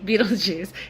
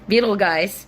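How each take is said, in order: First: The name ends with a soft 'juice' sound. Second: The name ends with a hard 'guys' sound. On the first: This is how the name is pronounced. "you pronounce it like Beetlejuice" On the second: This is how the spelling looks. "It's spelled like Beetle guys"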